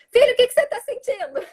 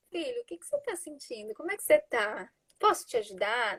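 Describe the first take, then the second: First: High and loud, exasperated; impatient shouted question. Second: Much softer, gentle and tranquil; calm tender. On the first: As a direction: snap the question at the child. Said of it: "Não adianta falar". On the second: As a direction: soothe the child, ask softly. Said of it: "com um tom de voz tranquilo". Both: Shown as a demonstration.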